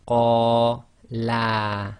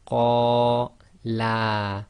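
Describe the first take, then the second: The two takes are said the same way.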